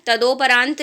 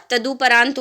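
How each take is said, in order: First: तदोपरांत as "ta-do-pa-raant"; wrong O vowel. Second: तदुपरांत as "ta-du-pa-raant"; correct U vowel. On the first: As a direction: sound a full O in तदोपरांत. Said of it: "तदोपरांत नहीं होगा". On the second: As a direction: sound a short U in तदुपरांत. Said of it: "तदुपरांत होता है". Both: Shown as a demonstration.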